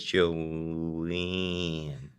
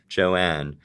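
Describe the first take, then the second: First: The vowel is closed, nasal and near eh. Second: The vowel is open with the jaw dropped. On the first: "She says Joanne. So she's not opening her mouth at all to make that vowel" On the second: "doing my non-regional, like nearly broadcast speech"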